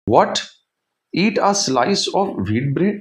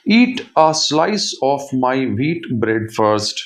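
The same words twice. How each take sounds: First: Higher, slow, rising echo question; incredulous question. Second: Said in the usual way. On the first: A narrator's reading. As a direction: repeat the demand back in disbelief. Girl questions oven's demand in disbelief. (हैरानी से पूछते हुए)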